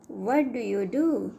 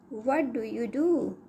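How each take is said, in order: Both takes have the same delivery.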